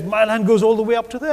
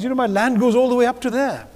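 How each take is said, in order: First: Higher, lightly acted proud farmer boasting; a hint of a proud farmer pointing out his boundary. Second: Higher, lightly acted proud farmer boasting; a hint of a proud Sikh farmer showing his land. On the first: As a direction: show off the trickle of water with mock pride. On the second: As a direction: show off your little plot with mock pride. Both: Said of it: "But he's very proud of it".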